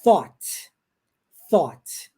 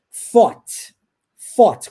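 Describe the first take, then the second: First: "thought" with the tongue between the teeth; correct th. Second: "fought" said with a clear F; the F mistake, said loud; "fought" with F, not th; wrong th as F. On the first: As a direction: model the right th. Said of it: "a pronúncia correta do T H". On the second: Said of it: "com som de F". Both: Shown as a demonstration.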